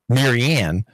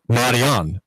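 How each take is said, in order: First: The name has a plain American pronunciation. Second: The name has a delicate French pronunciation. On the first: The common vulgar form she rejects. The speaker calls it wrong. "not Marianne, M A R Y A N N" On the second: The refined form she insists on. The speaker calls it right. "but Marianne, which is the French spelling"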